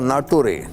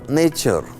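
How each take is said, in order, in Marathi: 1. हा शब्द अक्षरांनुसार म्हटला जातो, 'natoo-ray'. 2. हा शब्द इंग्रजी शब्द 'nature' सारखा म्हटला जातो. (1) "तो मुलगा म्हणाला नाटुरे" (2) "फळ्यावर लिहिलं नेचर"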